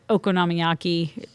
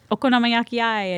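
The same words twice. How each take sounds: First: Said in the usual way. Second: "okonomiyaki-ai" higher, with an added "eye" ending; Osakan pronunciation. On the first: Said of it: "doesn't sound like the same word". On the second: Shown as a demonstration. Quoting an anime character's word, "okonomiyaki-ai" ending in "eye". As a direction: lift "okonomiyaki-ai" and tack on "eye". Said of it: "is how he says it".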